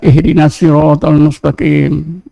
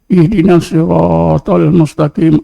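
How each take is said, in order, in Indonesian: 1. Vokal pada sirat dibaca dengan panjang biasa. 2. Vokal pada sirat dibaca sangat panjang. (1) "Kita baca je lah ... tak ukur-ukur ya" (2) "Shotnya itu dua harakat, ini dah lebih jadi empat"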